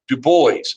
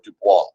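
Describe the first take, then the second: First: The name is said a non-French way. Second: The name is said the French way. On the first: The speaker calls it right. "he did pronounce it Du Bois" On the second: The speaker calls it wrong. "not like the French word Dubois"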